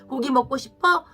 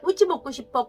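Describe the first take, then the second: First: The first word is said as gogi. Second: The first word is said as kkoji. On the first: The speaker calls it right. "정확한 말을 들려주는 거" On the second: The speaker calls it wrong. "아이가 ... 자기가 실수했다"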